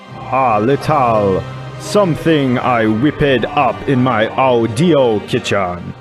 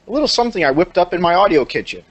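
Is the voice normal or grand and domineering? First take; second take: grand; normal. First: It is read in a godlike, domineering voice. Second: It is read in a normal voice.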